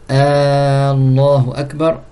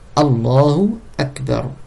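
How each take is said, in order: First: The first A of Allah is drawn out. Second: The first A of Allah is short. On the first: It asks whether God is greatest. The speaker calls it wrong. "ne pas prolonger la première lettre, le A" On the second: It states that God is greatest. The speaker calls it right. "on dit bien Allahu Akbar"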